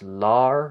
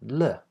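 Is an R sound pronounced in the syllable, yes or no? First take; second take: yes; no. First: The syllable ends with an R sound. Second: The syllable has no R sound. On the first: The speaker calls it wrong. "not lar with an er consonant" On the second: The speaker calls it right. "that R is completely silent"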